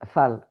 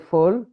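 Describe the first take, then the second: First: The vowel sounds like an open 'a'. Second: The vowel sounds like an 'o'. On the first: It means the chosen one. The speaker calls it right. "you have to pronounce Fal" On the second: It means crazy. The speaker calls it wrong. "If you say Fol in French, it means I'm crazy"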